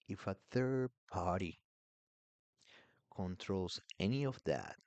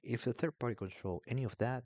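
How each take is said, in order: First: It is said slowly. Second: It is said at normal speed.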